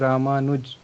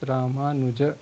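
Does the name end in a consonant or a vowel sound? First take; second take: consonant; vowel. First: The name ends on a bare consonant sound. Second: The name ends with a final vowel sound. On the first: It is the Hindi pronunciation. "that is in Hindi, so I I pronounce like Ramanuj" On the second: It is the Sanskrit pronunciation. "But if I have to pronounce in Sanskrit, I will pronounce Ramanuja"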